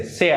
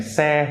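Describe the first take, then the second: First: "se" turned into a diphthong, countryside Vietnamese accent; countryside Nha Quê accent. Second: Said in the usual way. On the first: Shown as a demonstration. Teacher shows what they say, countryside Vietnamese accent. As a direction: rural Nha Quê glide on the vowel of "se". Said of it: "countryside Nha Quê accent". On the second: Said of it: "Instead of saying se".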